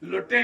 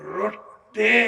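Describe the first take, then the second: First: The word begins with an l sound. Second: The word begins with an r sound. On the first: The speaker calls it wrong. "లొట్టె కాదు" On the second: The speaker calls it right. "రొట్టె అంటారు దాన్ని"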